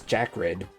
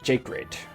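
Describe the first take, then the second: First: The first word has the short vowel of 'Jack'. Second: The first word has the long vowel of 'Jake'. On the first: The speaker calls it right. "I pronounce mine as Jack Red, like Jack and Red" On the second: The speaker calls it wrong. "some of them pronounce it Jake Red, like, like Jake Paul, but no"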